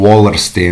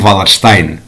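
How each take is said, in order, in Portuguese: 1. O nome é pronunciado de forma americana. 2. O nome é pronunciado de forma alemã. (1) "não como Wallerstein" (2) "de ascendência germânica, portanto, é razoável uma pronúncia ... como Wallerstein"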